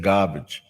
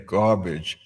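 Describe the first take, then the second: First: "garbage" as "gahbage", r dropped; Boston garbage. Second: Said in the usual way. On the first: Shown as a demonstration. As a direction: drop the r in "garbage". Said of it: "you're supposed to say garbage". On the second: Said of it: "I said garbage".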